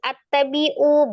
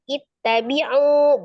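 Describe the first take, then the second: First: The word begins with an a vowel. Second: The word begins with an i vowel. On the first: The speaker calls it wrong. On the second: The speaker calls it right. "kita kasih harokat kasroh"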